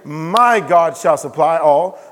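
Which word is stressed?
My. The stress is on "My".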